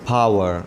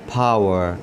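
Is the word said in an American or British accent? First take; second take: American; American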